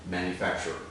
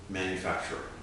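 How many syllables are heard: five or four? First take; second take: four; four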